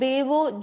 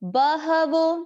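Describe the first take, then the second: First: The middle h sound is dropped. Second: The middle h sound is clearly pronounced. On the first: The speaker calls it wrong. "इसको बेवो जो भी हम बोलते हैं" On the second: The speaker calls it right. "इसमें ह का उच्चारण हमको शुद्ध"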